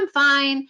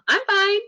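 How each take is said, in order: First: It sounds relaxed and genuine. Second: It sounds forced, with a fake smile.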